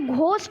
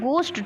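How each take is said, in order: First: The first consonant is breathy, with an h sound. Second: The first consonant is a plain g sound. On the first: The speaker calls it wrong. "घोस्ट नहीं कहते हम" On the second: The speaker calls it right. "हम कहते हैं गोस्ट"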